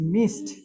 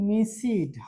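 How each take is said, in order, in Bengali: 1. শেষাংশটি একটি ছোট 't' ধ্বনি। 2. শেষাংশটি একটি অতিরিক্ত 'id' ধ্বনি। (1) "হবে মিসড" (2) "আমরা বলি মিসিড"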